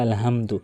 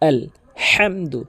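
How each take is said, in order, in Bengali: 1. 'h' ধ্বনিটি একটি হালকা, শ্বাসযুক্ত শব্দ। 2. 'h' ধ্বনিটি একটি গভীর, গলা থেকে আসা শব্দ। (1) "বড় হার জায়গাতে ছোট হা এনে উচ্চারণ করে" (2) "এখানে বড় হা এনে উচ্চারণ করতে হবে"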